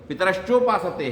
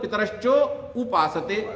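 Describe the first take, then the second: First: It is said as one joined word. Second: It is split, with उपासते said separately. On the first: The speaker calls it right. "वहां पर उसको वैसे ही रखिए" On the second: The speaker calls it wrong. "अब पितरश्चोपासते को कैसे बोलते हैं लोग"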